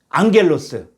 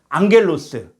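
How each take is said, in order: Both takes have the same delivery.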